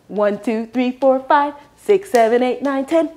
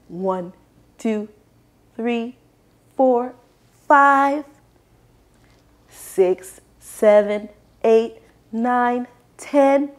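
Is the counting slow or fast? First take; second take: fast; slow. First: The numbers are counted fast. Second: The numbers are counted slowly.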